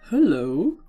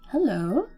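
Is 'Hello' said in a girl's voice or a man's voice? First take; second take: man; girl. First: It is said in a man's character voice. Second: It is said in a girl's character voice. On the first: The speaker calls it wrong. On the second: The speaker calls it right.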